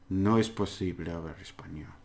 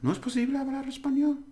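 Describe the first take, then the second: First: It is said as a plain statement. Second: It is said with question intonation. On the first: It asserts that it is not possible. "It's a negative statement" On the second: It asks whether it is not possible. "The question is in the intonation"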